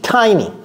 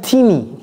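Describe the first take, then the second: First: The first vowel sounds like 'eye'. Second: The first vowel sounds like 'ee'. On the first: The speaker calls it right. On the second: The speaker calls it wrong.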